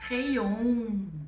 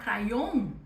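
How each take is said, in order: First: The first vowel is an E sound. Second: The first vowel is not an E sound. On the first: The speaker calls it right. "se você associar com a letra E" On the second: The speaker calls it wrong. "em vez de falar crayon"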